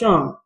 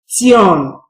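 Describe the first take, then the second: First: It is said as one syllable, 'shun'. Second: It is said letter by letter, 'tee-on'. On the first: The speaker calls it right. "This is called phonogram Sean" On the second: The speaker calls it wrong. "It is not Tion"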